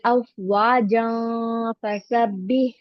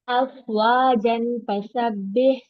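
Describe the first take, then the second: First: The n sound before fa is hidden, nasalized. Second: The n sound before fa is clearly pronounced. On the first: The speaker calls it right. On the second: The speaker calls it wrong.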